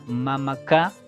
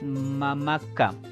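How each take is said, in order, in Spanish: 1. La sílaba final ka lleva el acento. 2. La sílaba final ka no es tónica. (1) "la mayor fuerza de voz va a llevar en K" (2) "no es mamá K"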